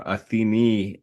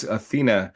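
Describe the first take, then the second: First: "Athene" said ah-thee-NEE; modern Greek pronunciation. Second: "Athena" said uh-THEE-nuh; English pronunciation. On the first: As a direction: end "Athene" on a clear EE. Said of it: "Athene in modern Greek". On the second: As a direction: end "Athena" on a relaxed uh. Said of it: "I don't know about this Athena". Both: Shown as a demonstration.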